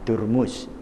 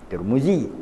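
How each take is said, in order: First: The name is said with u vowels. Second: The name is said with i vowels. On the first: This is the original place-name reading. "Dia baca Turmuz, nama tempat di Iran" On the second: This is the Malay reading. "Kalau nak baca Tirmizi itu Melayu"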